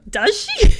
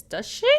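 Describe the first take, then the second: First: Shrill, loud disbelief; incredulous high squeak. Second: Said in the usual way. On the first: Acted. Repeat of a line, much higher.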